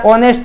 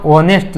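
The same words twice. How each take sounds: First: ઓનેસ્ટ opening on the vowel; silent H. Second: ઓનેસ્ટ with its written H sounded; as spelled. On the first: Teacher recapping the pronunciation, ઓનેસ્ટ with a silent H. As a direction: say ઓનેસ્ટ as "o-nest", no H. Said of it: "ઉચ્ચાર ઓનેસ્ટ થતો હોય". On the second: Teacher recapping the spelling, ઓનેસ્ટ with a sounded H. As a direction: read ઓનેસ્ટ by its spelling, "ho-nest". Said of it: "લખવામાં ઓનેસ્ટ લખાતો હોય". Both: Shown as a demonstration.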